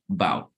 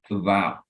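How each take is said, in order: First: The first vowel is left out entirely. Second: The first vowel is a weak, reduced sound. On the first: "don't even pronounce the A" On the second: "we say"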